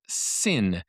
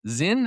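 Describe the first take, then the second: First: The word begins with an S sound. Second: The word begins with a Z sound. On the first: "I've also heard it pronounced Sin" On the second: "I've heard it pronounced Zinn"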